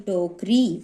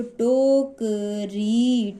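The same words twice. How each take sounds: First: Said in the usual way. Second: टोकरी very slow, each syllable held long; sounding out. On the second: Shown as a demonstration. Teacher demonstrating vowel signs, syllable by syllable, very slow. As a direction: stretch टोकरी into to, ka, ree. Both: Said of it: "इस तरीके से हमें मात्राओं का उच्चारण करना है".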